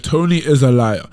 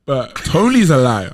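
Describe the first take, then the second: First: Slow, louder, spelled out word by word; emphatic repeat. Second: Slow, louder, every word leaned on; emphatic accusation. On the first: Restating that Tony lies, slow and louder. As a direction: repeat it slowly and firmly. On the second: Accusing teammate Tony, slow and louder. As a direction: say it slowly and firmly. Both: Real, not acted. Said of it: "I'll say it again".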